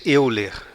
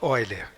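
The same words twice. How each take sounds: First: The first vowel sounds like 'eh-oo'. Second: The first vowel sounds like 'oy'. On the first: This is the usual local pronunciation. "aqui no Brasil a gente diz Euler" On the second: This is the original German pronunciation. "Se fôssemos falar o nome dele com a pronúncia alemã, seria então von Euler"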